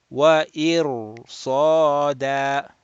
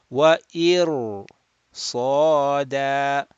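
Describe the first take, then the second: The two takes are said the same way.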